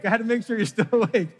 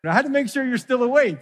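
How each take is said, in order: First: Laughing. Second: Said in the usual way. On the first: Real, not acted.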